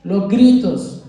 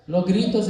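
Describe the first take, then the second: First: Los gritos, slow and loud; stressed slowly. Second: Said in the usual way. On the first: Shown as a demonstration. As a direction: draw out gritos with weight. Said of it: "La actitud, nuestros gestos". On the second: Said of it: "Los gritos, hermano".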